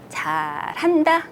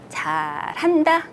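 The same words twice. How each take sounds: First: It is said mockingly, with a sarcastic edge. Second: The same.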